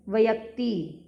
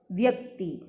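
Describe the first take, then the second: First: व्यक्ति split with an extra vowel, "va-yakti"; mispronounced व्यक्ति. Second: व्यक्ति with v and y joined, "vyakti"; correct व्यक्ति. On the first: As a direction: break व्य into two syllables in व्यक्ति. (व्यक्ति का गलत उच्चारण, "वयक्ती") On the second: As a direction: glide straight from v into y in व्यक्ति. (व्यक्ति में व्य मिलाकर) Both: Shown as a demonstration. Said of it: "अशुद्ध रूप".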